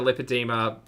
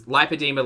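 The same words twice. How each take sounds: First: Lipedema said with a short "lip" at the start; second pronunciation variant. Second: Lipedema said with "lie" at the start; first pronunciation variant. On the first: Host offering the other way to say lipedema, as LIP-uh-dee-muh. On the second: Host offering one way to say lipedema, as LIE-puh-dee-muh. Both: Shown as a demonstration. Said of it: "it doesn't matter whether it was".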